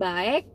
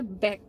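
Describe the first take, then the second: First: The vowel is read as separate letters. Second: The vowel is a single short sound. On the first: The speaker calls it wrong. "bacanya bukan baek" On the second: The speaker calls it right. "tapi bacanya back"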